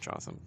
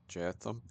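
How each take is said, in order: First: The first vowel is a plain back o sound. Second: The first vowel is a rounded front oe sound. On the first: This is how the speaker personally says the name. "I like I pronounce it Jotham" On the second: This follows the original spelling with the dotted O. "I think it's supposed to be like an O E kind of sound"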